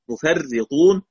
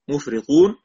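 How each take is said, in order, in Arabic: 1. صوت r مشدد ويليه i. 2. صوت r مفرد ويليه i. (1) "وأبو جعفر بكسرها مشددة" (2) "نافع بكسر الراء مخففة"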